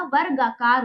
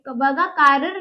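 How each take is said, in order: First: वर्गाकार as "var-gaa-kaar", r before the g; correct pronunciation. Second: वगाकार as "va-gaa-kaarr", r only at the end; wrong pronunciation. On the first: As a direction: give the right reading वर्गाकार, r closing "var". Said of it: "वगाकार नहीं होता". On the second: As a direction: misread it as वगाकार, leaving no r before g. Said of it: "नहीं होता". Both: Shown as a demonstration.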